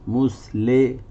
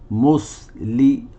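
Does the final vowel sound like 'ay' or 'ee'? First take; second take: ay; ee. First: The last vowel is an 'ay' sound. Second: The last vowel is a pure 'ee' sound. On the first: The speaker calls it wrong. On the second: The speaker calls it right.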